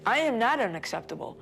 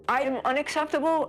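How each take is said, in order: First: Raised-pitch, emphatic rebuttal; retold protest, falling to a firm close; indignant denial. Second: High-pitched, incredulous retort; retold disbelief, voice jumping up; indignant echo. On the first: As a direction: firmly reject the accusation, pitch lifted. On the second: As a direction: throw the accusation back as an offended question.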